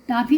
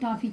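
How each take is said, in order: First: The first vowel is an open 'aa' sound. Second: The first vowel is a rounded 'aw' sound. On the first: The speaker calls it wrong. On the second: The speaker calls it right.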